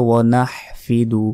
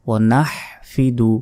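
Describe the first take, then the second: Both takes have the same delivery.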